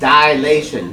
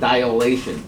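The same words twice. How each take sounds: First: The first part sounds like 'die'. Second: The first part sounds like 'dial'. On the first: The speaker calls it right. "it's D I L A T I O N" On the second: The speaker calls it wrong. "not D I A L"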